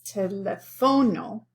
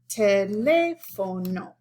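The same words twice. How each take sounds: First: The stress is on the second-to-last syllable. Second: The stress is on the third-to-last syllable. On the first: The speaker calls it wrong. "this O, which would be the natural stress" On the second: The speaker calls it right. "It falls on this syllable, so we have to mark it"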